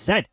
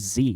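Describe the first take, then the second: First: The letter name ends in a 'd' sound. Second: The letter name ends in a long 'ee' sound. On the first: This is the pronunciation used in Canada. The speaker calls it right. "It's Z. Well, in Canada, it is" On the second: This is the pronunciation the game pushes. The speaker calls it wrong. "that game keeps trying to force people to say Z"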